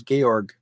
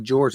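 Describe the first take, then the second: First: Georg with a hard G at the end, German style. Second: Said in the usual way. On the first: Shown as a demonstration. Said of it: "it's not George, it's Georg". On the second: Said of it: "when you say it's not George".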